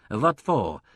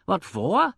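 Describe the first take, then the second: First: Languid. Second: High, louder indignant echo. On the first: Partner questioning impresario's find, languid. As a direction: ask it with weary indifference. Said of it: "demanded Mister Rosencrantz languidly". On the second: Impresario echoing partner's question, indignant. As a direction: throw the question back in disbelief. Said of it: "Indignation quivered in the tone". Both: A narrator's reading.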